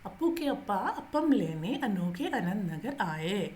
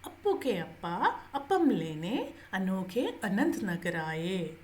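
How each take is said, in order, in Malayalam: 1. ഈ വാക്യം വേഗത്തിലാണ് പറയുന്നത്. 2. ഈ വാക്യം സാവധാനത്തിലാണ് പറയുന്നത്.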